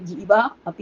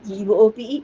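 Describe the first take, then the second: First: The two words are said separately. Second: The two words are joined into one. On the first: The speaker calls it wrong. "എന്ന് വായിക്കേണ്ട ആവശ്യമില്ല" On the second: The speaker calls it right. "എന്ന് വായിച്ചാൽ മതി"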